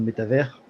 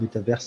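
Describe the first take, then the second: First: The word is said with French pronunciation. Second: The word is said with English pronunciation.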